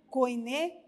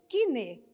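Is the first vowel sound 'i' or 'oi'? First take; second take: oi; i. First: The first vowel is said as 'oi'. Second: The first vowel is said as 'i'. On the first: The speaker calls it wrong. "nós não vamos ler koine" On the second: The speaker calls it right. "mas sim kine"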